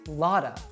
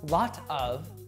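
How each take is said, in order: First: The words blend into one, with 'of' reduced. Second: Both words are said separately and fully. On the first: The speaker calls it right. "So I say lotta" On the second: The speaker calls it wrong. "not lot of"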